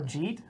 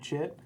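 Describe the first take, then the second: First: It is one syllable with a long 'ee' vowel. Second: It is one short syllable with a short vowel. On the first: "or Jeet" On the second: "Nothing tilts me more than people calling it like Jit"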